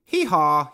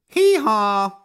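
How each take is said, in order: First: High, loud donkey hee-haw; a hammed-up donkey call; donkey bellow. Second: Much higher, much louder donkey hee-haw; a big braying call from the old donkey. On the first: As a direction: bray it out like a donkey. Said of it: "he bellowed". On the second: Acted. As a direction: let rip a full donkey bray. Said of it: "Dusty brayed".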